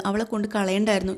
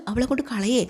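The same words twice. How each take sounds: First: Said in the usual way. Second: അവളെ കൊണ്ട് കളയേ thrown back higher, with a rise on കൊണ്ട്; indignant echo. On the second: Acted. Mother throws her daughter's words back at her, indignant.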